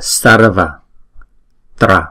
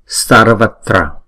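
First: The word is said slowly, split into two parts. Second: The word is said smoothly as one joined unit. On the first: "chúng ta đọc chậm là sarva tra" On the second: "ghép lại thì chúng ta phải đọc cho nó liền chữ với nhau"

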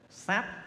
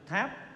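First: The word begins with an s sound. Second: The word begins with an aspirated t sound. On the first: This is the traditional reading used by elders. "nhưng mà cụ xưa nay đọc là sáp" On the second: This is the usual modern reading. "thường chúng ta đọc là chữ tháp"

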